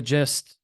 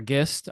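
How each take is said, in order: First: "gist" with a soft g, like "jist". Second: "gist" with a hard g, as in "give". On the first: Speaker offering one way to say the name, "gist" with soft g. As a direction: say "gist" starting with a j sound. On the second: Speaker offering the other way to say the name, "gist" with hard g. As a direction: start "gist" with a g sound, not j. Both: Shown as a demonstration. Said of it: "I don't know how people pronounce it".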